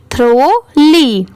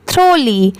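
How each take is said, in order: First: थ्रोली slowly split as थ्रो-ली; syllable by syllable. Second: Said in the usual way. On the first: Shown as a demonstration. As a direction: sound out थ्रोली in two drawn-out parts. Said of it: "मेरे बाद एक बार फिर से repeat करिए". (थ्रोली को धीरे, थ्रो और ली में तोड़कर बोलें) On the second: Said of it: "दोनों मिला देंगे तो थ्रो ली".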